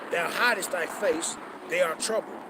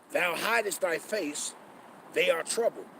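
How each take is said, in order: The two takes are said the same way.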